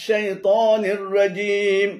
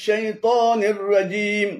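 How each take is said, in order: No difference in how they are said.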